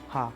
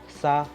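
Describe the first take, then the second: First: The word begins with an h sound. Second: The word begins with an s sound. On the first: This is how it is said in other areas. "they would say ha" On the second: This is how it is said in the speaker's city. "we when we say sa"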